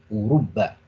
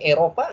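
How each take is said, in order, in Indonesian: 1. Diucapkan dengan bunyi Arab. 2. Diucapkan dengan bunyi Indonesia. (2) "Kita membacanya Eropa nggak ada masalah"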